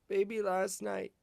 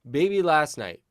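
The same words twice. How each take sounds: First: It is spoken quietly and gently. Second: It is spoken at a fuller, louder volume. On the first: "a little quieter, ... you're gently saying it to her" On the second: "compress the sound. So hold back all the air as you do it"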